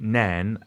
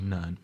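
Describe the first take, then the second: First: It is said in a general, non-local accent. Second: It is said in a local Scottish accent. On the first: This is how most outsiders say the name. "as most people would pronounce it" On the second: This is how people from the town say it. "the locals actually say Nairn"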